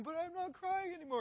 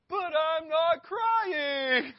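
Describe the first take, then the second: First: Very high, whiny mock wail; imitated child crying. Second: Put-on high, very loud drawn-out child's wail; mock wailing protest. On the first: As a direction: mimic a tearful kid insisting, without shouting. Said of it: "he starts crying again". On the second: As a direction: mimic a tantruming kid screaming in denial. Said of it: "And he goes".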